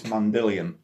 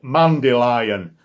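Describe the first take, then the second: First: "Mandillion" said with a short "dill" in the middle; presumed correct pronunciation. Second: "Mandylion" said the Yorkshire way, loud and plain; Yorkshire pronunciation. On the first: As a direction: say "Mandillion" carefully, as the proper name. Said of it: "I'm presuming it's Mandillion". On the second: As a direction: say "Mandylion" as a Yorkshireman would, with a flat Yorkshire vowel. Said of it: "In my accent, uh, Yorkshire accent". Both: Shown as a demonstration.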